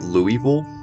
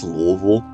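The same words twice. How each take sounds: First: It is said the way outsiders pronounce it. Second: It is said the way locals pronounce it. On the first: The speaker calls it wrong. "stop calling it Louisville" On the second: The speaker calls it right. "that's just how we say it"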